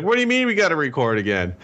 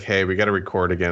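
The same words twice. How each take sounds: First: High-pitched, fast incredulous protest; retold irritation. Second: Said in the usual way. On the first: Podcaster retells his reaction to re-recording, irritated and incredulous. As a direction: replay your irritated disbelief, pitch leaping up. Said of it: "You know how irritated I am". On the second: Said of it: "when you told me".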